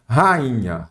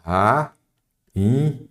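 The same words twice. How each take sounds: First: Said in the usual way. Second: "Ra-in-nha" in three separate syllables with pauses; split into syllables. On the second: Shown as a demonstration. ("Ra-in-nha" pausado, sílaba por sílaba) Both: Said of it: "separar em sílaba".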